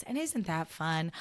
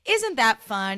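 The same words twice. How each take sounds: First: Ina Garten voice. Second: Louder, lightly voiced cheery TV cook; a hint of a beaming TV chef; Ina Garten voice. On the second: Podcaster imitating a cheery TV cook for listeners, louder. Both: Shown as a demonstration. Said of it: "In the Ina Garten voice".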